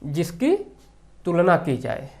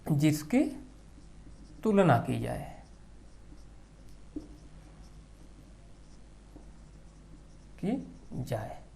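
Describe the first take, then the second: First: Said in the usual way. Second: Softer, slower repeat for note-taking; drawn-out dictation, trailing quieter. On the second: Shown as a demonstration. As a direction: say it again slowly so they can write it down. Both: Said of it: "उपमेय मतलब".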